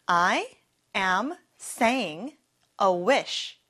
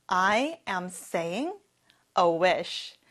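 First: Chunked repetition. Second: Slow whole sentence. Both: Shown as a demonstration. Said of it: "같이 해볼까요?".

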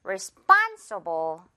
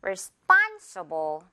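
First: Slow responsible, span hit; one more time, span punched; slow drill repeat; stress on span. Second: Slow responsible, span hit; slow teaching model of responsible; stress on span. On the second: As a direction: drill word, lean on span. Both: Shown as a demonstration. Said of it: "span 부분을 강하게요".

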